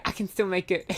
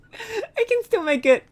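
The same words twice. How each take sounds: First: Said in the usual way. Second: High, laughing disbelief. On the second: Real, not acted. Streamer reassuring herself while giggling nervously. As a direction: giggle it out, half not believing it.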